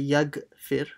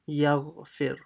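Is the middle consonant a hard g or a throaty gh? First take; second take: hard g; throaty gh. First: The middle consonant is a hard g sound. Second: The middle consonant is a throaty gh sound. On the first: The speaker calls it wrong. "Don't say yaghfir, it's not a g" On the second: The speaker calls it right. "it's gha"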